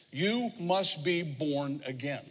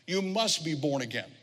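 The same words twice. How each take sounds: First: Word by word, drawn out; slow, deliberate quote. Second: Said in the usual way. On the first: Shown as a demonstration. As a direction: give each word its own weight. First, deliberate take of verse.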